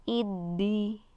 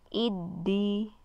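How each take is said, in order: No difference in how they are said.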